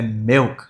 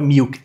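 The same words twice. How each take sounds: First: "milk" said as "melk"; low "milk" with eh-like vowel; short-i pronunciation. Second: "milk" said as "meelk"; tense ee in "milk"; wrong long-i version. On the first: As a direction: relax the i in "milk" toward ê. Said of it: "os is com som de E". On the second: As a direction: say "milk" like Brazilian "miuk". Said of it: "não é milk". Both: Shown as a demonstration.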